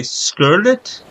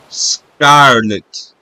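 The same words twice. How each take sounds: First: "scarlet" with the A as "uh"; Italian-style vowel. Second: "scarlet" with an open "ah"; open Spanish A. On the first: Showing how Italian would say it, "scarlet" with uh. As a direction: turn the A of "scarlet" into "uh", rising at the end. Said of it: "where Italian would say". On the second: Comparing Spanish and Italian vowels, open ah in "scarlet". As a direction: stretch the A of "scarlet" wide open. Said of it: "in Spanish, the letter A is pronounced with open sound". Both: Shown as a demonstration.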